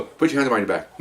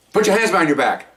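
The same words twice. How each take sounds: First: Said in the usual way. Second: Now tell him, no asking; firm order. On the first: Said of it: "You ask them to do something". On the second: Shown as a demonstration. Officer repeating the order to the refusing suspect, firm and higher. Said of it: "You tell them to do it".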